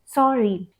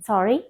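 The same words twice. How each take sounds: First: It is said in an apologetic tone. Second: It is said in a questioning tone. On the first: The speaker is apologizing. The speaker calls it wrong. "the apologetic tone of sorry" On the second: The speaker is asking for clarification. The speaker calls it right. "it should be a questioning tone"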